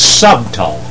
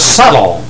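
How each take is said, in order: First: The b in the middle is pronounced. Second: The b in the middle is silent. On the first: This is the original, older pronunciation. "That's the first pronunciation of the word" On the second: This is the later, changed pronunciation. "A use of the word down through the years is turned into subtle"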